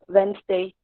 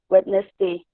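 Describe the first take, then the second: First: It is reduced to two syllables. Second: Every letter is sounded, giving four syllables. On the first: The speaker calls it right. "we usually pronounce it as Wednesday, Wednesday, to only two syllables" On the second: The speaker calls it wrong. "according to the spelling, it will come to Wednesday, but it's uh, as four syllables"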